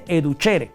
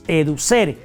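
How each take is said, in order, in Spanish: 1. La c suena como ch. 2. La c suena como una s.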